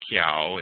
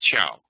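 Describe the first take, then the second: First: The word begins with a k sound. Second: The word begins with a ch sound. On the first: The speaker calls it wrong. "It's not ciao or kiao" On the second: The speaker calls it right. "it's ciao"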